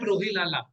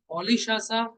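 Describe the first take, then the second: First: The name sounds like 'Rohilala'. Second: The name sounds like 'Olishasa'. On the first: The speaker calls it wrong. "not Rohilala" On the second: The speaker calls it right. "listen the pronunciation"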